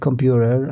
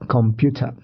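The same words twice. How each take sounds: First: It is said with an American accent. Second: It is said with a British accent. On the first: "not computer, as a would uh, American Englishman would said" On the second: "but computer"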